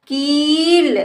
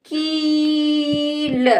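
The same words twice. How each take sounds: First: कील joined, shorter rising ee; blended word. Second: कील with long level की, then ल; sounded out. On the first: Teacher blends the word for a child, joined up. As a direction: run कील into one word. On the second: Teacher sounds out the word for a child, stretched. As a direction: stretch कील apart slowly. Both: Shown as a demonstration. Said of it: "इस तरह से बेटा हम शब्दों को".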